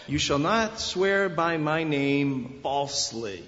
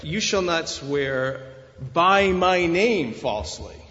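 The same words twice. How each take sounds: First: Slow, measured verse with weight landing on "falsely"; stress on truthfulness. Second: "by my name" punched loud after a pause; loud, drawn-out "by my name"; stress on God's name. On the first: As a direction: draw out "falsely" at the end. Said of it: "It is on the truthfulness". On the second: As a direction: hit "by my name" hard and let "falsely" drop away. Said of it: "They read them this way". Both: Shown as a demonstration.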